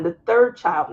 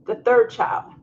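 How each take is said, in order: First: Third pushed a little louder; stress on third. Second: Put-on the third child said as a breathy whisper. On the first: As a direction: lean on the word third. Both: Shown as a demonstration. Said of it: "not the fourth".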